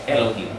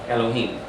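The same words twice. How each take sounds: Both takes have the same delivery.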